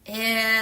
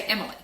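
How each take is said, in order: First: Emily in three pieces with long gaps; segmented syllables. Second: Said in the usual way. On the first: Shown as a demonstration. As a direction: say Emily one syllable at a time, pausing between. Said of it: "teacher might say". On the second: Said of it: "That's called blending".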